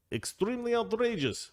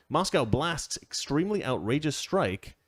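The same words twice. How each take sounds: First: Higher, hammed-up outrage on Extremely outrageous; mock indignant officialese. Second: Said in the usual way. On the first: Shown as a demonstration. Host mocks Kremlin phrasing, hammed-up indignation. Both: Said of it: "That's how they say it".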